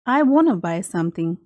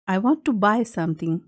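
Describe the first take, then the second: First: 'Want to' is said fast, blended into 'wanna'. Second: 'Want to' is said slowly as two full words.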